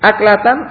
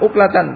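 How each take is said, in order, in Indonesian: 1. Kata ini diawali dengan vokal 'a'. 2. Kata ini diawali dengan vokal 'u'. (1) "bisa dibaca uklatan atau bisa dibaca aklatan" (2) "bisa dibaca uklatan"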